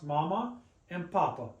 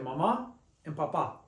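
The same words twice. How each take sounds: First: The stress is on the first syllable. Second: The stress is on the last syllable. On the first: This follows the general stress rule. "should be pronounced mama and papa" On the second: This is how the words are actually said. "But we say mama and papa. They break the rule"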